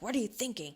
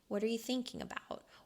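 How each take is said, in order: First: It is asked in an aggressive tone. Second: It is asked in a gentle tone.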